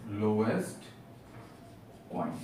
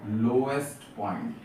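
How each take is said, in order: First: lowest and point said as two separate words with a long pause between; slow, spaced repeat. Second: Said in the usual way. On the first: Shown as a demonstration. Teacher repeating the term for students, slow and spaced out.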